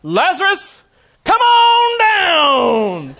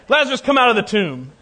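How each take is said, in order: First: High, drawn-out game-show style holler; loud cry. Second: Raised, commanding call; loud voice. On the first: Preacher as Jesus jokingly summoning Lazarus from the tomb, huge shout. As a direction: call out at full force, stretching the last words. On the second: Jesus ordering Lazarus out of the tomb, loud but measured. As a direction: call out firmly, louder and a little higher. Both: Acted. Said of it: "In a loud voice, he cried out".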